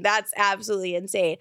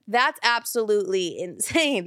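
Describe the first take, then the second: First: Said in the usual way. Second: Disbelieving laugh mid-line. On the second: Real, not acted. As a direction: laugh through the words. Repeats line, laughing first time.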